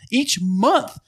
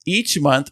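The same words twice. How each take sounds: First: "Each month" repeated high, with month rising; stressed repeat. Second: Said in the usual way. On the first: Real, not acted. Repeats the phrase for emphasis.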